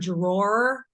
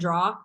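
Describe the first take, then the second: First: The word is said the standard way. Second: The word is said the local Boston way. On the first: "I don't say the word drawer" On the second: "that's just how I say it"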